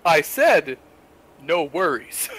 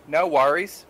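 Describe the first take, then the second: First: Deliberate American "No worries", covering the Kiwi slip; corrected, over-careful American accent; faux American accent. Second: "No worries" with Kiwi vowels slipping out; casual slip into a Kiwi accent; New Zealand accent on "worries". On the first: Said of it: "faux Western accent, their American accent". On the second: Acted. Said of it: "drop out of their faux Western accent".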